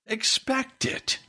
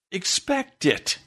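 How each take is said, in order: First: "Expect it" slow and much higher, rising at the end; "Expect it" repeated as a pleading question; higher insistent repeat. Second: Slow, weighty "Expect it" with a falling end; "Expect it" said as a slow, stern warning; firm command. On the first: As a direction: lift "Expect it" high and draw it out. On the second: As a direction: lay down "Expect it" heavily and slowly. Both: Real, not acted.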